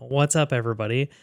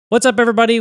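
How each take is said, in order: First: The greeting is calm and at normal volume. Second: The greeting is loud and excited. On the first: "in an appropriate voice now" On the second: "so I said it loud"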